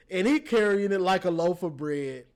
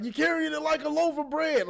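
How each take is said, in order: First: Said in the usual way. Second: Higher coach-yell quote; mock coach voice; imitating a coach. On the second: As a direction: bark it like a coach on the sideline. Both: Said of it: "when the coaches be like".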